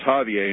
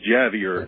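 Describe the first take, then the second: First: The name is pronounced the Spanish way. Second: The name is pronounced the English way. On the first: "he kept correcting me, saying, no, it's Javier" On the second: "it's Javier in English"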